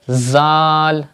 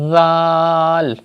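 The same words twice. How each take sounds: First: The first sound is a hissing, whistling z. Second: The first sound is soft, without any hiss. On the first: The speaker calls it wrong. "If you pronounce this letter like that, zal, it is wrong... reading with whistle sound" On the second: The speaker calls it right. "You have to read this letter without whistle sound like that"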